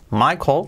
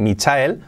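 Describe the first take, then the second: First: "Michael" as MY-kol, L barely there; natural English "Michael", two syllables; subtle final L. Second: "Michael" as mee-cha-EL; wrong pronunciation demo. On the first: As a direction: soften the L at the end of "Michael". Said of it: "con ese L muy al final, muy sutil". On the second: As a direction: read "Michael" letter by letter, Spanish style. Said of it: "fijaos cómo pronuncio". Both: Shown as a demonstration.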